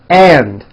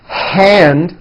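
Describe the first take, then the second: First: It begins straight on the vowel, no h. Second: It begins with a breathy h sound. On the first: The speaker calls it wrong. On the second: The speaker calls it right.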